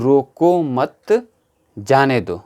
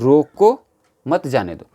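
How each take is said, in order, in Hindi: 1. विराम 'mat' शब्द के बाद आता है। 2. विराम 'roko' शब्द के बाद आता है। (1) "रोको मत, उसको रोको मत, जाने दो" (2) "उसको रोको, जाने मत दो"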